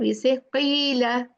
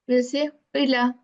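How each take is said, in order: First: The first vowel is drawn out long. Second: The first vowel is short. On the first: The word has a lengthening letter. "when we say ya sakina here" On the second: The word has no lengthening letter. "If there is no ya here"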